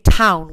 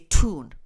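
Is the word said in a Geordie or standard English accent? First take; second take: standard; Geordie. First: It is said with a standard English vowel. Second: It is said with a Geordie 'oo' vowel.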